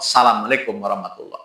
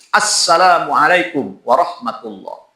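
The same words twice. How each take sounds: First: The greeting starts directly with 'sa', no opening vowel. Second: The greeting starts with an opening 'a' vowel sound. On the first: The speaker calls it wrong. "Alifnya dibuang. Pakai sa. Ini tidak sah" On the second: The speaker calls it right. "wajib mengucapkan salam pakai alif"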